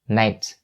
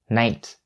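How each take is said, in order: First: The final T is clearly released. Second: The final T is clearly released.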